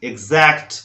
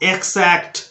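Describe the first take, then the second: First: The x sounds like egz. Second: The x sounds like eks. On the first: The speaker calls it right. "एक्स का sound एग्स" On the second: The speaker calls it wrong. "वो भी गलत है"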